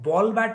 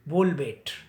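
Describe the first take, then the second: First: It is said with standard English vowels. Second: It is said with Gujarati-accented vowels. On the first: "बॉल बैट नहीं बोलेंगे" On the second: "बोलेंगे बोल बेट"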